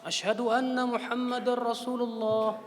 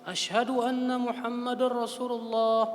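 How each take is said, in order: The two takes are said the same way.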